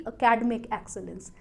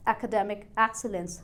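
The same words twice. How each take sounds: First: "academic" as "uh-KAD-mik", slowly demonstrated; slow "academic excellence" with academic squashed to uh-KAD-mik; wrong pronunciation. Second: "academic" as "ak-uh-DEM-ik", slowly modelled; slow "academic excellence", DEM stressed in academic; correct stress. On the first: (academic का गलत उच्चारण, "अकैडमिक") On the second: (academic में "डे" पर ज़ोर, धीरे) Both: Shown as a demonstration. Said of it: "ना कि".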